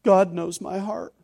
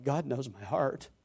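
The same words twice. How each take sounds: First: Mocking the defensive brush-off; smug, slow brush-off of a challenge; dismissive retort. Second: Much softer, slow and sobered; hushed reverence at being fully known; fearful awe. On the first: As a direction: toss it off as a trump card. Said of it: "American Christianity responds with". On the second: Shown as a demonstration. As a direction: say it as a fearful, humbling truth. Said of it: "I find it more like".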